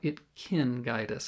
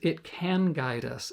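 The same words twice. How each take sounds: First: 'Can' is reduced to sound like 'kin'. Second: 'Can' has a full open 'a' vowel. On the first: The speaker calls it wrong. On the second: The speaker calls it right. "the proper way to say is"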